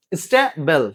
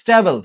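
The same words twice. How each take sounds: First: "স্টেবল" parted into স্টে and বল; split into syllables. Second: Said in the usual way. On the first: Shown as a demonstration. Teacher repeating the word for the class, "স্টেবল" in two syllables. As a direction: leave a gap inside "স্টেবল", between স্টে and বল. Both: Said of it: "two syllable, তাহলে কি".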